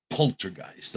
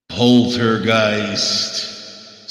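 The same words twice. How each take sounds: First: Said in the usual way. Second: Poltergeist stretched very slow and eerie; spooky drawn-out title. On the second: Shown as a demonstration. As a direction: draw out Poltergeist like a horror trailer.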